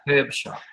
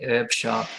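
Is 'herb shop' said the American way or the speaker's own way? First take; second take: own way; American. First: It is said in the speaker's own non-American accent. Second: It is said in an American accent. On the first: "so we say" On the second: "as Americans say"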